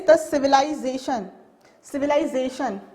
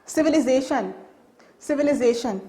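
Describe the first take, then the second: First: Civilization with ZAY said as lie, civi-lie-zation; civilization, British civi-LIE-zation; British pronunciation. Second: Civilization with a short i, civi-li-zation; civilization, American civi-li-ZAY-tion; American pronunciation. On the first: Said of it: "In British, uh, they says". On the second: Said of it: "American says". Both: Shown as a demonstration.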